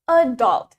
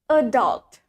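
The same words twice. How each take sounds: First: The stress is on the first syllable. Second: The stress is on the second syllable. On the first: This is the British pronunciation. "The stress is in the first syllable" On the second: This is the American pronunciation. "And in American, ... The stress is in the second syllable"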